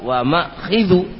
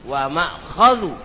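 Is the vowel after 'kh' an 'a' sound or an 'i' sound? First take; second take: i sound; a sound. First: The vowel after kh is an i sound. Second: The vowel after kh is an a sound. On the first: The speaker calls it wrong. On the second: The speaker calls it right.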